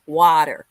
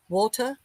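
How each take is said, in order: First: American "water", "WAH-der"; "water" with tapped t and hard r; American accent. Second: British "water", "WAW-tuh"; "water" with crisp t and dropped r; British accent. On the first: Showing the less pretty version, American accent. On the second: Comparing the two accents for viewers, British accent. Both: Shown as a demonstration. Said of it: "sounds much better than water".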